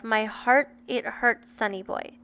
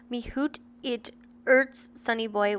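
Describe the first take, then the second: First: Said in the usual way. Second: "hoot it urts" said as spelt, with hoot for heart and no h on urts; dialect spelling. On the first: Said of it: "version of". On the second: Shown as a demonstration. Podcaster quoting the letter's odd phrase, "hoot" and "urts" as spelt. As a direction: say "hoot" to rhyme with boot and drop the h in "urts". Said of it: "taken as a Scottish accent".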